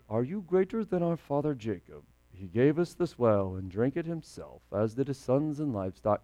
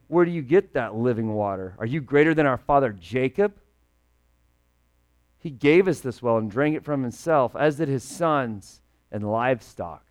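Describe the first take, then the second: First: Mumbled, softer, toneless reading of the verse; flat Bible reading. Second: Lightly sassy retort, a touch of attitude; mock sassy. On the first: Retold or imitated. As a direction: read it like a dry text nobody feels. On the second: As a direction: give it a little salty back-talk. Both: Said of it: "this woman is getting sassy with Jesus".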